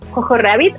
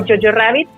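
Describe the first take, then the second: First: The title is read with Spanish sounds. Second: The title is said with English sounds. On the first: The speaker calls it wrong. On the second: The speaker calls it right.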